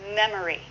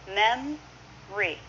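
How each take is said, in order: First: The word is said with three syllables. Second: The word is said with two syllables.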